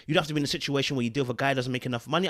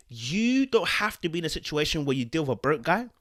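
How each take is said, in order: First: Fast, rushed restatement of the point; rapid-fire repeat. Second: Said in the usual way. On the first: Shown as a demonstration. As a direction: rattle it off quickly to drive it home. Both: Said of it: "repeats the point much faster".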